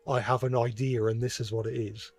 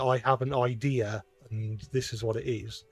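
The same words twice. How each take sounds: First: An R sound links 'idea' to 'and'. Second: No R sound links 'idea' to 'and'. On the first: "I say ... I'll use an R to link them together" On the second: "some might say"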